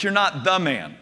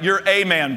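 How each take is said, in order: First: "the" said as stressed THE before "man". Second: "a" stressed, as the letter's name, before "man". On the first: Correcting Peter's big head, stress on "the". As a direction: lean on the word "the", meaning the one and only. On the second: Putting Peter back among the others, stress on "a". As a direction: lean on the word "a", meaning just one of many. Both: Retold or imitated.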